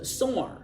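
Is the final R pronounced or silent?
pronounced. The final R is pronounced, American style.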